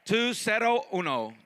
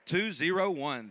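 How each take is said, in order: First: Uno said as Spanish oo-no. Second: Said in the usual way. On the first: Shown as a demonstration. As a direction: end with "uno", Spanish style.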